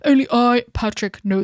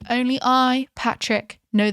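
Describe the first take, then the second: First: It is said in a deeper, lower voice. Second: It is said in the normal speaking voice.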